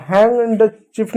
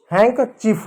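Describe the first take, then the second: First: Handkerchief misread as "हैंड चीफ" with a d; D pronounced. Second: Handkerchief said "हैंक चीफ" with no d sound; silent D. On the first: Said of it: "नहीं होगा". (डी बोलकर "हैंड चीफ") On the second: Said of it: "हैंड चीफ नहीं होगा". (डी silent रखकर "हैंक चीफ") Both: Shown as a demonstration.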